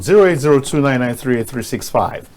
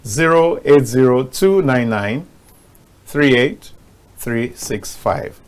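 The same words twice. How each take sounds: First: The number is said fast. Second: The number is said slowly.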